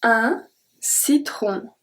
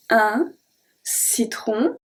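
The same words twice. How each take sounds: First: Slow it down so learners hear "citron"; slow demo. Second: Said in the usual way. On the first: Shown as a demonstration.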